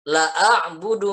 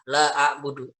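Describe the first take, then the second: First: The vowel in 'la' is cut short. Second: The vowel in 'la' is held long. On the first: Indeed I worship. The speaker calls it wrong. "kalau membaca lamnya pendek" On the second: I do not worship. The speaker calls it right. "Dibacanya la panjang"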